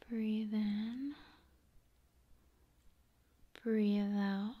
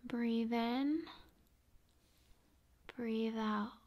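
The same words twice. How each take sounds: The two takes are said the same way.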